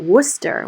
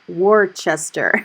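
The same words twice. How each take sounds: First: It is said the New England local way. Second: It is said the non-local, outsider way. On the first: The speaker calls it right. "we all in New England call it Worcester" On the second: The speaker calls it wrong. "We don't call it Worcester"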